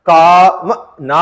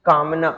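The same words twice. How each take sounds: First: कामना drawn out very slowly, first syllable leaned on; slow dictation. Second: Said in the usual way. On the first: Shown as a demonstration. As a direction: stretch कामना out like a teacher dictating. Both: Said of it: "फिर जैसे आपको लिखना".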